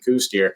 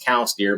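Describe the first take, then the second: First: The first word rhymes with 'goose'. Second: The first word rhymes with 'cows'. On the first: This is how most people say it. The speaker calls it wrong. "everybody calls them coos deer" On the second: This is the proper pronunciation. The speaker calls it right. "the correct pronunciation is cows deer"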